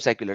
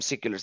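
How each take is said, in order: First: The first syllable sounds like 'sec'. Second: The first syllable sounds like 'sick'.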